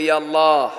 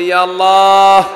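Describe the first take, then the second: First: It is said loudly. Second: It is said even more loudly.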